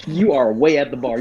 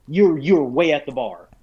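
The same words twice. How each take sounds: First: "You are" spelled out firmly, uncontracted; insistent retold correction on "You are way"; emphatic restatement. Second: Mildly exasperated reminder to a player; lightly protest, stumbling into it; acted-out game master objection; retold protest. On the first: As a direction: stress each word of "You are way at the bar". Repeats the objection, spelled out. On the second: Retelling his objection as game master.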